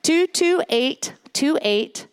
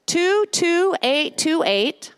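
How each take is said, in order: First: Two two eight two eight, each digit slow and separate; carefully spaced two two eight two eight; slowly repeated number. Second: Two two eight two eight, each digit spaced out slowly; slow higher dictation of two two eight two eight; slow, clear number. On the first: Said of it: "I will repeat this". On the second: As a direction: read the number slowly so they can type it. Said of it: "giving the text number". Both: Shown as a demonstration.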